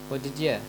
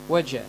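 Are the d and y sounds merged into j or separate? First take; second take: separate; merged. First: It is said slowly with separate d and y. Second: It is said fast with d and y merged. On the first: "You will get d and yeah" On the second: "Then you end with j sound"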